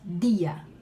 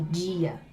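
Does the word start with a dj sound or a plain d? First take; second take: plain d; dj sound. First: The d is a plain, hard d sound. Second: The d sounds like a soft dj sound. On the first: The speaker calls it right. "é pronunciado como se diz lá em Pernambuco" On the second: The speaker calls it wrong. "Não é com esse H que em alguns lugares do Brasil se diz"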